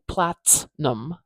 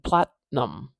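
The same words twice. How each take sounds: First: The T is released with a burst of air. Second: The T is held without a burst of air. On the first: The speaker calls it wrong. "I'm not saying platinum" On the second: The speaker calls it right. "I'm saying platinum"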